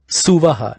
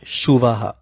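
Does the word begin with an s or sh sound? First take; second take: s; sh. First: The word begins with an s sound. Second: The word begins with a sh sound. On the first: The speaker calls it right. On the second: The speaker calls it wrong. "not Shuvaha"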